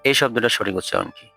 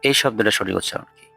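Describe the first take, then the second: Both takes have the same delivery.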